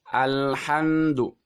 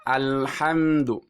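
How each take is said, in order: No difference in how they are said.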